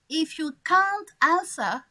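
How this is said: It is said in a British accent. "People from Australia, England, Ireland, or Scotland"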